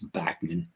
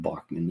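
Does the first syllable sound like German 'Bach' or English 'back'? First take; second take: English back; German Bach. First: The first syllable is said the English way. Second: The first syllable is said the German way. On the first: This is how the man says his own name. The speaker calls it right. "his actually his name is Bachman" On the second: This follows the German spelling of the name. The speaker calls it wrong. "not Bachman"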